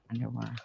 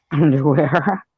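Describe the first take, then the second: First: Said in the usual way. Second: Higher, louder, drawn-out questioning underwear with a laugh; laughing disbelief. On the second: Real, not acted. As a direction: laugh at the absurd word underwear. Laughs at odd chat word.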